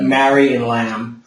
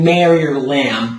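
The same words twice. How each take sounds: First: MARY and LAMB slow, tall and open; rounded, British-like vowels in Mary and lamb; lower, slower, open-vowel Mary and lamb; full singer's vowels. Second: MARY and LAMB with spread everyday vowels; "mare-ee" and flat "lam"; wrong wide vowels. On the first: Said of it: "but Mary and lamb". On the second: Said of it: "you're not saying Mary or lamb". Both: Shown as a demonstration.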